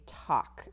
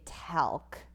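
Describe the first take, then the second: First: "talk" with an open ah and silent L; correct "talk". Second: "talc" with a flat a as in cat; wrong "talc" reading. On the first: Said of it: "we say talk". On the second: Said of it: "We don't say talc". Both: Shown as a demonstration.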